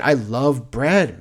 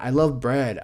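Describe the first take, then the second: First: "bread" drawn out long and falling, slow; stretched "bread". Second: "love" hit as the key word, "bread" quick and light; stress on love. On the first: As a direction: lean into "bread" and let it linger. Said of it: "said again with stress moved". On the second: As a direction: punch "love" and let "bread" drop. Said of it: "repeat stressing love". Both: Real, not acted.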